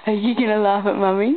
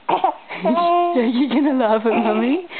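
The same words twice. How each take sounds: First: Said in the usual way. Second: Put-on slow baby talk.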